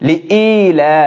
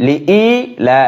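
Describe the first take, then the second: No difference in how they are said.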